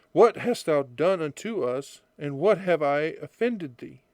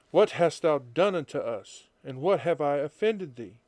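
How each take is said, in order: No difference in how they are said.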